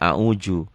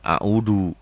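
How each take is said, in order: First: The middle consonant sounds like a j. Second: The middle consonant sounds like a hard d. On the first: This is a Betawi speaker's pronunciation. "Kalau orang Betawi seringkali a'uju" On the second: This is a Sundanese speaker's pronunciation. "seringkali orang Sunda a'udu, kekerasan"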